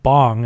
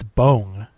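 First: The name is said with an American pronunciation. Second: The name is said with a Korean-style pronunciation. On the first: The speaker calls it wrong. "as everyone says it in America" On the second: The speaker calls it right. "that it's Bong Joon-ho"

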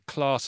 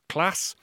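First: It is said in a southern English accent. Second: It is said in a northern English accent. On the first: The speaker is not originally from the north. "I say class ... I'm not from the north originally" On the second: The speaker would be from the north. "and not class"

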